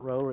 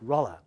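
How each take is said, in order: First: The first vowel sounds like in 'roll'. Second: The first vowel sounds like in 'hollow'. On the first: The speaker calls it wrong. "It's not roller" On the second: The speaker calls it right. "He rhymes it with hollow, holler"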